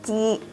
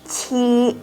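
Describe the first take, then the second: First: The first consonant has no puff of air. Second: The first consonant has a strong puff of air. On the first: The speaker calls it wrong. "jangan dibaca ci" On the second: The speaker calls it right. "Kalau tujuh harus keluar udara"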